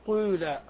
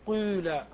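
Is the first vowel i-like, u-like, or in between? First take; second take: in between; in between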